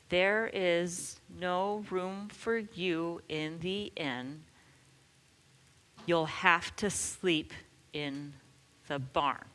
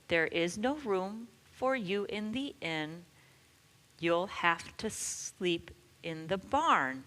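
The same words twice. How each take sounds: First: It is said slowly. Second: It is said a little faster.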